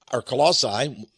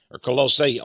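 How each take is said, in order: First: Colossae said as ko-LAH-sigh; other pronunciation. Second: Colossae said as ko-LOH-seh; alternate pronunciation. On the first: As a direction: say Colossae with a short a and a final sigh. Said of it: "whichever one you want to pronounce it". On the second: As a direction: say Colossae with a long o and a final eh. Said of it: "You may pronounce it a little different than me". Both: Shown as a demonstration.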